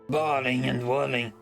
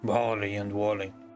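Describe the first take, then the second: First: It is said in a higher, shallower voice. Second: It is said in a deeper, rougher voice.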